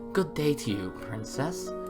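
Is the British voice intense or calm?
calm. It is said in a calm British voice.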